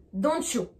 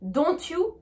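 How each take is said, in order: First: DON'T YOU fused as "donchu"; linked with CH. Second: DON'T YOU with separate T and "you"; French pronunciation. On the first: Teacher showing the rule, DON'T YOU linked. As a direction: put ch between DON'T and YOU. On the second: Teacher showing before and after, DON'T YOU French-style. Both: Shown as a demonstration. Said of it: "rajouter le son C H entre les deux".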